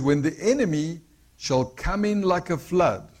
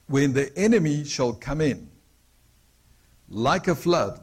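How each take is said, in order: First: The pause comes after the word flood. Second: The pause comes after the word in.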